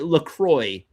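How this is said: The name is said with American pronunciation.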